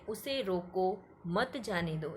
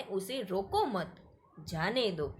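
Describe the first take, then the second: First: उसे रोको as one phrase, मत जाने दो as the next; break after रोको. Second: रोको मत together, then pause before जाने दो; pause after मत. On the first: Teacher explains the first meaning, breaking after रोको. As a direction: keep मत with जाने दो, apart from रोको. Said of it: "पहले का मतलब है". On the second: Teacher explains the second meaning, pausing after मत. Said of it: "दूसरा जो वाक्य है उसमें कहा गया है". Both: Shown as a demonstration.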